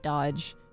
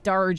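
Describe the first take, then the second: First: The word sounds like 'dodge'. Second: The word sounds like 'darge'. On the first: The speaker calls it right. "instead of dodge" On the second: The speaker calls it wrong. "I said Darge instead of dodge"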